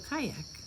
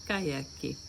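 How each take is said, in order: First: The word ends on a k sound. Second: The word ends with an added i vowel. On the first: This is the English pronunciation. "So kayak" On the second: This is the Portuguese pronunciation. "You guys say kayaki"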